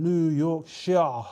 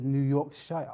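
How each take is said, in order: First: Yorkshire ending in a long "shah"; drawn-out pronunciation. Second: Yorkshire ending in "shire", like "shy-er"; alternative pronunciation. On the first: Host reading a viewer's location, drawn-out pronunciation of Yorkshire. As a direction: slowly say Yorkshire with a one-syllable "shah" ending. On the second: Host questioning his own reading, alternative pronunciation of Yorkshire. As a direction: say the full "shy-er" at the end of Yorkshire. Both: Shown as a demonstration. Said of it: "or is it New Yorkshire?".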